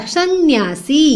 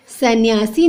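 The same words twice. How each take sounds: First: "सन्यासी" as san-nyaa-si; correct pronunciation. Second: "सन्यासी" as sa-nyaa-si; no held nasal in "सन्यासी"; wrong pronunciation. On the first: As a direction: hold the nasal in "सन्यासी". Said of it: "सन्यासी नहीं होता". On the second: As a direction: run sa straight into nya in "सन्यासी". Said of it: "नहीं होता". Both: Shown as a demonstration.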